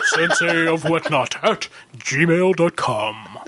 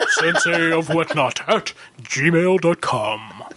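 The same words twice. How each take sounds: First: It is said in a deep baritone voice. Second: The same.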